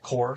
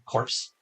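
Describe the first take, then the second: First: The word ends without p and s sounds. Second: The word ends with p and s sounds. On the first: The speaker calls it right. "like Core, C O R P S" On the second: The speaker calls it wrong. "You got characters who pronounce it corpse"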